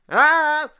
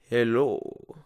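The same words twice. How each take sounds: First: The voice is harsh and grating. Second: The voice is smooth and pleasant.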